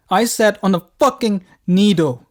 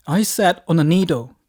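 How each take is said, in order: First: Frantic outburst. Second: Loud, emphatic cry of alarm; put-on distress, word by word; distressed announcement. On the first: Acted. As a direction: yell it in hammed-up panic, stretching each word. Repeats it louder to wife. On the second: Panicked phone call to wife.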